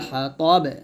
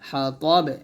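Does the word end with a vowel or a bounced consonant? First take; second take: bounced consonant; bounced consonant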